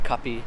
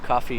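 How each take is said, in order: First: It is said with a P sound instead. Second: It is said with an English F sound.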